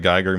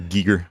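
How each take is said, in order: First: The first syllable sounds like 'guy'. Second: The first syllable sounds like 'gee'. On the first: The speaker calls it wrong. "I always say it wrong" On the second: The speaker calls it right. "or Giger. I'm sorry"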